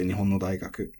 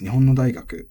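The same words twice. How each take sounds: First: Nihon no daigaku with no kept level; alternative pitch accent. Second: Nihon no daigaku with the accent released on no; pitch accent demo. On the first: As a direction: say Nihon no daigaku flat through no. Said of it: "you could still say". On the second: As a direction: say Nihon no daigaku with a drop after no. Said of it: "would be pronounced". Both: Shown as a demonstration.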